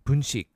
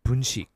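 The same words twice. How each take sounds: No difference in how they are said.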